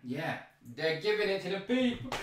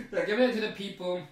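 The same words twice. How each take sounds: First: Said in the usual way. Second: Fast, laughing repeat of the line. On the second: Real, not acted. Amused by the drug handout, repeats it laughing fast. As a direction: laugh through it as you rush the words.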